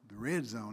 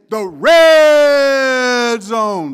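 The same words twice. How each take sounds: First: The phrase is said plainly and flatly. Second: The phrase is said loudly and energetically. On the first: The speaker calls it wrong. "you just say" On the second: The speaker calls it right. "We say, the way it's supposed to be said"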